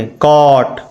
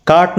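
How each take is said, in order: First: "कॉट" with a rounded aw vowel; correct pronunciation. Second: "काट" with a long open aa vowel; wrong pronunciation. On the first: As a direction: say "कॉट" with ऑ, not आ. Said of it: "काट नहीं पढ़ेंगे". ("कॉट" में गोल ऑ की ध्वनि) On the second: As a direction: say "काट" with आ, as the misreading. काट नहीं पढ़ेंगे. ("काट" को गलत ढंग से लंबे आ के साथ) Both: Shown as a demonstration.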